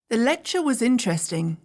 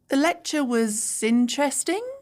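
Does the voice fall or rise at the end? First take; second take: fall; rise. First: The voice falls at the end. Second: The voice rises at the end.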